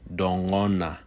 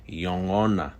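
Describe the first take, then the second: First: The word begins with a D sound. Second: The word begins with a Y sound. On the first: "pronounced with a D sound" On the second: "pronounced just as I said it"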